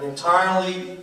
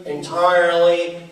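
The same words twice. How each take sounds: First: Said in the usual way. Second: ENTIRELY drawn out slowly and louder; stress on ENTIRELY. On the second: Acted. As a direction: lean heavily on "entirely", stretching it. Repeats the word for emphasis.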